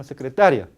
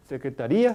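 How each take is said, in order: First: Secretaria with a short gliding ia, loud; correct pronunciation. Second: Secretaría with a stressed, drawn í, marked as wrong; wrong pronunciation. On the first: Teacher to class, the right way, loud. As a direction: say secretaria with a quick semivowel. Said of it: "No, sino". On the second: Teacher to class, the wrong way. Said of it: "Nunca se debe decir". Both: Shown as a demonstration.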